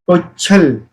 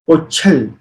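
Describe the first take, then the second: The two takes are said the same way.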